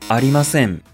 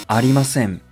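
The two takes are said the same way.

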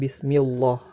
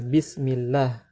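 First: The L in Allah sounds thick and heavy. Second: The L in Allah sounds thin and light. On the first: The speaker calls it wrong. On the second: The speaker calls it right. "kita baca secara ringan lafaz Allahnya"

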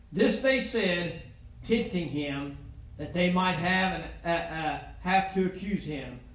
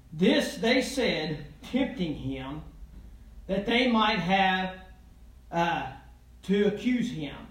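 Both takes have the same delivery.

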